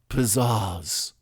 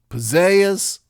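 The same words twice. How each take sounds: First: The second vowel has a British-style ah sound. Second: The second vowel is a Southern gliding eh sound. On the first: "the British ah" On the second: "the Southern diphthonged eh"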